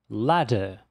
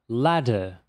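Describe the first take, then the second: Both takes have the same delivery.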